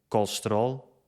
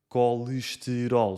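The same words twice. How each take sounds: First: The unstressed E is dropped from the word. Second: The unstressed E is pronounced as a vowel.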